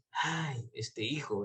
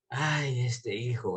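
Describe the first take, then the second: First: Sighing lament. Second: Said in the usual way. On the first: Retold or imitated. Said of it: "por eso habla ahí de respiro". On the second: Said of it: "era como".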